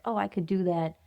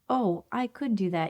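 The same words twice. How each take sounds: First: It sounds dismissive and unimpressed. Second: It sounds inspired and encouraged.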